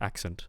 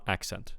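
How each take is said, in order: First: The final syllable has a reduced vowel. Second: The final syllable has a clear 'eh' vowel. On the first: "especially British uh, varieties of English" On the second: "we want accent in for American English. So we want e, e ent"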